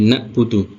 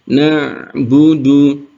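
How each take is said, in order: First: The middle consonant is a plain glottal stop. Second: The middle consonant is a throat 'ain' sound. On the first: The speaker calls it wrong. "ain itu rawan tertukar dengan hamzah. Jangan sampai jadi na'budu" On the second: The speaker calls it right. "Yang betul adalah"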